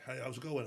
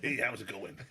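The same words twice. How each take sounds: First: Said in the usual way. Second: Put-on loud, laughing stab at an American accent; bad American accent. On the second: Imitating a strongman for the hosts, bad American accent. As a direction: badly fake an American greeting. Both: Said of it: "I can't do an American accent".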